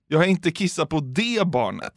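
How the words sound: The word det carries the main stress. A different child was peed on. "Men jag har kissat på något annat barn"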